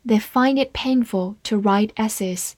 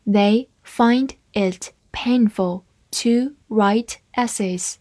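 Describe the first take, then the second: First: Said in the usual way. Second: Slow, careful read-aloud. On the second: Shown as a demonstration. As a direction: read the sentence slowly for learners. (慢速朗读) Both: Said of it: "好，慢读一遍".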